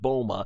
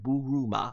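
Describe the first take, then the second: First: The name is said with English-style syllables. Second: The name is said with Japanese-style syllables. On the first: This is the form used in the English dub. "also in the Funimation dub pronunciation" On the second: This is the original Japanese form of the name. "If I said it right, ... how to pronounce it in Japanese"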